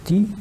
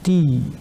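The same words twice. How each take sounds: First: The vowel is kept short. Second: The vowel is held long. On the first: "La prononciation devient ti" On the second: "la prononciation est prolongée et devient ti"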